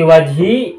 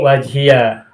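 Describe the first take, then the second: First: The word ends in a plain 'ee' sound. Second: The word ends with an added 'ya' syllable. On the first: "boleh disukunkan" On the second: "boleh difathahkan"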